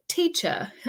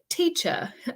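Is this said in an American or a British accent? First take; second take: British; British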